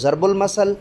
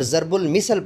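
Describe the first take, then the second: First: It starts with z and has masal. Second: It starts with z and has misal. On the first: "गलतुल्लाम के हिसाब से पढ़ना है तो" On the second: "पढ़ना totally गलत है"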